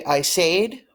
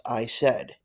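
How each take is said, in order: First: "said" wrongly rhymed with "made"; "said" as "sayed", the learner's mistake; mispronounced "said". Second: "said" rhymed with "bed"; "said" as "sed", modelled for learners; correct "said". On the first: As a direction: say "said" with a long ay, higher pitched. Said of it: "You do not wanna say". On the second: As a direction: say "said" with a short e. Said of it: "This word is pronounced". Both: Shown as a demonstration.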